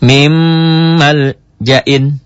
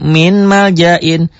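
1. Bunyi n menyatu dengan m yang mengikutinya. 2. Bunyi n diucapkan dengan jelas sebelum m. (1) "dibacanya jadi enggak min lagi, mim, double mim" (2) "secara teori betul. Tetapi teori yang salah"

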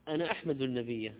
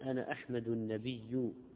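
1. الكلمة الأخيرة تنتهي بحركة 'a'. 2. الكلمة الأخيرة تنتهي بحركة 'u'. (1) "أحمده يعني أثني عليه" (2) "لكن لو قلت أنا أحمد النبي كفر"

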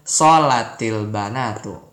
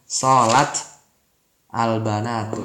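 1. Kedua kata disambung dengan vokal penghubung. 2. Kedua kata diucapkan terpisah tanpa sambungan. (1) "Kalau bacanya disambung" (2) "Kalau mau bacanya pisah-pisah"

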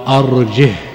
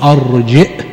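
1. تُنطق الكلمة بدون همزة. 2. تُنطق الكلمة بهمزة.

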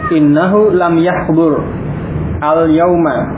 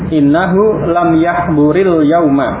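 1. Yahbur berakhir tanpa vokal sebelum al-yauma. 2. Yahbur tersambung ke yauma dengan tambahan i. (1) "kalau terpisah, lam yahbur, ini sukun" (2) "Kalau membacanya bersambung, maka tadi sukunnya dikasrah"

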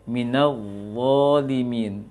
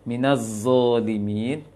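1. Konsonannya 'dh' yang lembut, lidah sedikit keluar. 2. Konsonannya bunyi 'z' yang berdengung. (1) "Maka pengucapannya adalah" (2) "Maka keliru ketika mengucapkan Allah, to yang bertitik itu dibaca seperti zai"

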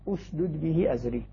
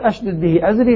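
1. تبدأ الكلمة الأولى بهمزة قطع و'u'. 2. تبدأ الكلمة الأولى بهمزة قطع و'a'. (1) "فإذا بدأ بها بدأ بها مضمومة" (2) "لقطع الهمزة. وطبعا مع فتحها"

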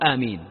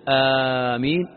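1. الحركة الأولى قصيرة. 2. الحركة الأولى ممدودة طويلة.

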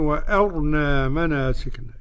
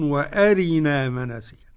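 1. الراء لا تحمل حركة وتُنطق ثقيلة. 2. الراء تحمل كسرةً كاملة وتُنطق خفيفة. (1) "بإسكان الراء" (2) "هيرقق الراء لأن هيقرا بالكسر"

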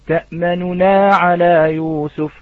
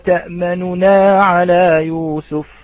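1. لا تُنطق حركة النون الأولى إلا إشارةً، بنحو الثلث. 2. تُختلس حركة النون الأولى فتُنطق بنحو ثلثيها. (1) "والروم هو الاتيان بثلث الحركة" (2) "والاختلاس هو الاتيان إخوة الكرام بثلثي الحركة"

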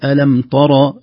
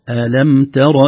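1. الطاء ثقيلة، مثل الطاء المفخمة. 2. الطاء خفيفة ورقيقة.

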